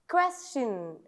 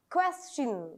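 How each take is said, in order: Both takes have the same delivery.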